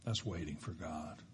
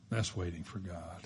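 First: Much softer, lower statement; quiet closing line. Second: Soft, low echo of the line; quiet repeat. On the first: Preacher closing the point, hushed and low. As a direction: let it land softly. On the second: Preacher repeating the point, hushed. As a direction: say it again, just as hushed. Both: Shown as a demonstration.

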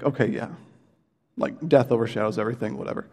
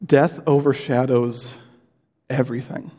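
First: Fast, offhand, a bit softer; mock casual brush-off; dismissive shrug. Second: DEATH overshadows everything, slow and heavy; solemn, unhurried statement; weighty, slow. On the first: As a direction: toss off death overshadows everything like it's no big deal. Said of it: "think, like". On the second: Shown as a demonstration. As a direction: lean hard on Death and let it sink in. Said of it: "I do want us to just sit in this".

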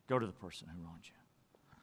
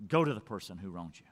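First: The Bible line again, much softer and lower; soft repeat. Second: Said in the usual way. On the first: Retold or imitated. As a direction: let the repeat sink to a hush. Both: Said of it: "When the Bible says".

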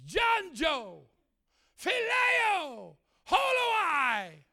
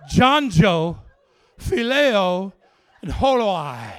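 First: High, drawn-out calls with falling ends; calling out names. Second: Very loud, spaced-out proclamation; booming names. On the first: Preacher calls out names God writes, high proclamation. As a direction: proclaim each name separately. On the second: Preacher reveals the dogs' names, booming proclamation. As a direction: boom each name out on its own. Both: Retold or imitated.

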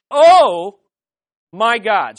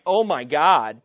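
First: Awestruck, booming OH; emphatic exclamation. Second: Said in the usual way. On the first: Shown as a demonstration. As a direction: belt out OH, pause, land firmly on MY GOD. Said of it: "hopefully you finished nine through eleven saying". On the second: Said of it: "it's not like".

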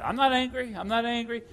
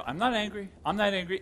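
First: Louder, higher, pressure rising under the words; strained denial. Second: Said in the usual way. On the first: Retold or imitated. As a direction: deny the anger while it boils up. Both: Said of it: "I can feel this pressure building in my chest".

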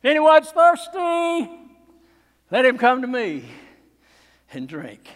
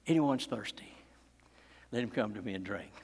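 First: Preacher voicing Jesus crying out to the crowd; cried out. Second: Low, soft and intimate; almost whispered to the congregation; preacher quietly repeating Jesus' invitation; hushed retelling. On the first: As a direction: call it out to the whole crowd. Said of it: "he cried out". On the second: Acted. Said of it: "cried out".

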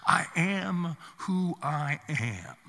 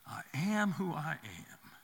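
First: Very slow, solemn and measured; God's answer. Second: Softer, slow and reverent echo; God's answer, hushed. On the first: God answering Moses from the bush, slow and solemn. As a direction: lay each word down like a pronouncement. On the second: God's name repeated to Moses, softer and reverent. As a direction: let it fall away to a hush. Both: Acted.

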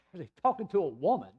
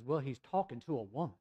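First: Acted disbelief with a laugh before it; higher, mock-incredulous repeat; incredulous echo. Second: Said in the usual way. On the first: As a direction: throw the words back as an outraged question. Father repeats the answer in disbelief.

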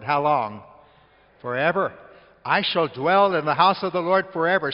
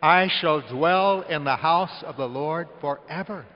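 First: Loud preaching shout; loud, fervent pulpit proclamation. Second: Slow, loud, said with everyone; leading the congregation in a loud, slow recitation; loud unison recitation. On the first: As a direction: call it out to the whole church. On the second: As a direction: lead them in saying it together. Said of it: "Say that with me". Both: Real, not acted.

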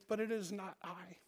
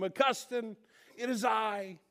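First: Soft, understated answer to a caller; quiet reply. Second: High, half-hearted call across the street; mild mock yell. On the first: Retold or imitated. Augustine looks back at his ex-lover, answering quietly. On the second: Ex-lover waving to Augustine, mock yelling. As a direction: imitate an old flame calling out. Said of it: "she starts yelling to him".

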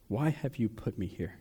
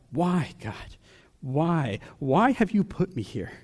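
First: Softer, drained plea to God; quiet plea. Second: Crying out to God. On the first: Preacher voicing a hurting believer, a softer, defeated plea. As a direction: let the question sink to near a hush. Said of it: "you're asking God". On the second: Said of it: "driven you to cry out". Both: Retold or imitated.

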